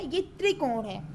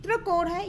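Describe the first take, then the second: First: त्रिकोण said cleanly with a short i, "tri-kon"; त्रिकोण pronounced correctly for the class. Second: त्रिकोण said as "trakon" with a flat a, wrong on purpose; त्रिकोण mispronounced as a student would. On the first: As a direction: model the proper tri in त्रिकोण. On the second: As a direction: slur the tri in त्रिकोण into tra. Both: Shown as a demonstration. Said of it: "पहले आप लोग सही बोलना सीखिए".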